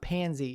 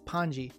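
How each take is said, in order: First: The name is said as Pansy. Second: The name is said as Ponji. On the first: The speaker calls it wrong. "it's not Pansy" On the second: The speaker calls it right. "it's Ponji"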